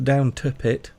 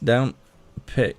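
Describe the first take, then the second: First: A separate T sound is heard before 'pit'. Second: The T sound is only implied, not said. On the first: The speaker calls it wrong. "It's not down to Pit" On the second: The speaker calls it right. "the T is actually implied. You don't say the T"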